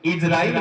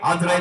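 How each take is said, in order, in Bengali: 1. নামটি 'i' ধ্বনি দিয়ে শুরু হয়। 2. নামটি 'a' ধ্বনি দিয়ে শুরু হয়। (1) "ইসরাইল বলা হচ্ছে সঠিক" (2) "আজরাইল বলা ভুল"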